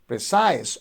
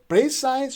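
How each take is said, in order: First: The stress is on the second syllable. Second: The stress is on the first syllable. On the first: The speaker calls it right. "precise on the second syllable" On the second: The speaker calls it wrong. "if you say precise, so you are stressing the first syllable"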